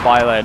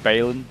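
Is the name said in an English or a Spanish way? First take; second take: Spanish; English. First: The name is said in a Spanish way. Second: The name is said in an English way. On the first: The speaker calls it right. "It's got like the accent of Bailén" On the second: The speaker calls it wrong. "I was calling it Bailen or something like that. It's just like we'll see the anglicized"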